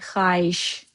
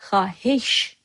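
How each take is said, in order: First: The word is pronounced in a reduced, easier form. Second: The word is pronounced in full, as spelled. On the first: "You say xahiş because it's easier" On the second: "You write xahiş"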